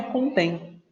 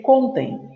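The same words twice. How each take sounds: First: "contém" said con-TÉM; "contém" with its stress at the end; stress on last syllable. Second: "contém" said CON-tem, stressed at the start; "contém" as the verb form CON-tem; stress on first syllable. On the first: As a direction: land on the final syllable of "contém". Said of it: "A letra D não é contém". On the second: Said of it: "é a penúltima". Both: Shown as a demonstration.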